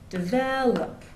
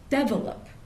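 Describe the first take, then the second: First: The stress is on the second syllable. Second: The stress is on the first syllable. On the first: This is the American English pronunciation. "In American English, the stress goes on the second syllable" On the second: This is a pronunciation from another dialect. "they'll often put the stress on the first syllable. So they'll say develop"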